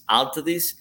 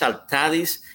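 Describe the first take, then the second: First: The name is said with an English pronunciation. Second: The name is said with a Spanish pronunciation. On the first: "in English because of the accents Altadis" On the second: "in Spanish it's Altadis"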